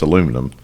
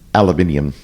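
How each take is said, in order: First: It is said with four syllables, the American way. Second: It is said with five syllables, the British way. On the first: The speaker calls it right. "when we know it's aluminum" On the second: The speaker calls it wrong. "the British mispronounce uh, aluminium"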